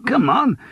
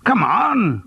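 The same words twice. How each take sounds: First: Pitched higher still with a rising lift; eager urging, rising. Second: High falling coax, come on; teasing friend pressing for gossip; eager urging. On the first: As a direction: push harder, almost pleading for the story. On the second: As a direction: nudge him to spill the news. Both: Acted. Gerald urging Charles to spill.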